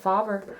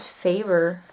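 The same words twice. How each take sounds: First: The first vowel is not a long A. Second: The first vowel is a long A sound. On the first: The speaker calls it wrong. "I always called it Faber" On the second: The speaker calls it right. "that would be a long A"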